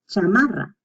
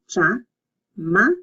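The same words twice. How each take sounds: First: Said in the usual way. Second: "chamarra" slowly as cha, ma, rra, trilled R; syllable by syllable. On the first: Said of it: "this one has a double R". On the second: Shown as a demonstration. Teacher drilling the double R, "chamarra" in separate syllables. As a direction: pause between each syllable of "chamarra". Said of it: "you separate the two".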